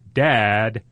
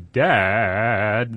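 First: The voice is steady, a plain call. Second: The voice wavers in a whiny way.

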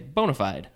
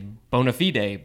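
First: It is pronounced in an everyday English way. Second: It is pronounced in a fancy Latin style. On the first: This is the usual way people say it. "But usually we just say" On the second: The speaker is being formal and fancy. "if you're being all fancy in Latin, you'd say"

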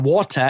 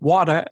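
First: It is said with a non-American accent. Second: It is said with an American accent.

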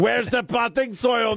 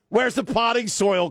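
First: It is said in a put-on Spanish accent. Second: It is said in the speaker's plain accent.

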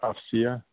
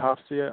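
First: The name begins without an audible H sound. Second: The name begins with an audible H sound. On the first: This is how the person herself would say it. "but she would probably say Hafsia" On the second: This is the speaker's own way of saying it. "I say Hafsia. I pronounce that H"

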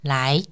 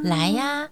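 First: It sounds like a firm command. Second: It sounds like a warm, beckoning invitation.

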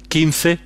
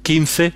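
First: The middle consonant is a 'th' sound. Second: The same.

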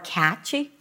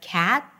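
First: An extra vowel is added after the final consonant. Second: The word ends on the consonant without a vowel. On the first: The speaker calls it wrong. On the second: The speaker calls it right.

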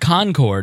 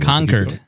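First: It is said the way outsiders say it. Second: It is said the way locals say it. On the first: The speaker calls it wrong. "It's not Concord" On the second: The speaker calls it right. "Concord is how they say it"

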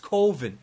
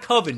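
First: The word does not rhyme with oven. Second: The word rhymes with oven. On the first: The speaker calls it right. "It's Coven" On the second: The speaker calls it wrong. "It's not Coven, man. That sounds like oven"

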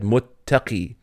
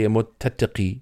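First: The t sounds merge into one doubled t. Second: The extra t sound is kept separate. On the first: The speaker calls it right. "The Arabs just said muttaqi" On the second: The speaker calls it wrong. "you don't say muttaqi. It'd be very difficult to say it"

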